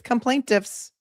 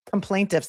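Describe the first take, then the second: First: Quoting coinage. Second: Mocking coinage. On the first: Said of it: "who just coined that phrase". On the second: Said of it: "That was fantastic". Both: Real, not acted.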